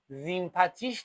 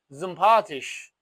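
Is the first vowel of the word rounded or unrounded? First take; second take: unrounded; rounded. First: The first vowel is a plain unrounded 'ee'. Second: The first vowel is said with rounded lips. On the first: The speaker calls it wrong. "زیمپاتیش نداریم بچه ها" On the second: The speaker calls it right. "توی هوختویچ و لهجه غلیظ آلمانی صدای او میدهد، میشود زمپاتیش"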